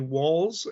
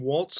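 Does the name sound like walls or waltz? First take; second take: walls; waltz. First: It ends in a z sound, like walls. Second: It ends in a ts sound, like waltz. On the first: The speaker calls it right. "it's actually walls as in more than one, you know, wall" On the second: The speaker calls it wrong. "I keep saying waltz as in the dance"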